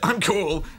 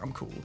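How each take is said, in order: First: The words are said in a loud, forced voice. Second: The words are said in a quiet, relaxed voice. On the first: The speaker sounds like he is trying too hard. The speaker calls it wrong. "If you said I'm cool, then that wouldn't be cool" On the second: The speaker sounds relaxed and actually cool. The speaker calls it right. "when you say you're cool, it's like, yeah, I'm cool"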